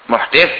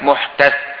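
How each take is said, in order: First: The vowel after the d is 'i'. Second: The vowel after the d is 'a'. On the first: "dengan mengkasur dal" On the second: "Dibaca lagi dengan menfathat dalnya"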